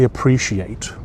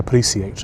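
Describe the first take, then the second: First: It is said in the common modern way. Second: It is said in an old-fashioned British way. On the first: "most people say appreciate" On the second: "very British men, they often say appreciate"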